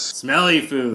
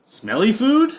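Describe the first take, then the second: First: It ends with a falling, agreeing tune. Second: It ends with a rising question tune.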